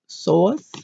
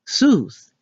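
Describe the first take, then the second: First: The name rhymes with 'voice'. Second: The name rhymes with 'goose'. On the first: The speaker calls it right. "how to actually say it is S O I C E" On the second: The speaker calls it wrong. "What we've been saying, Seuss, S O O S E"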